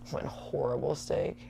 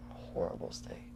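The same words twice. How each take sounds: First: Disgusted. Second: Whispered, much softer, with disgust. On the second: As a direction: whisper "Horrible steak." as if still sickened. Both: Real, not acted.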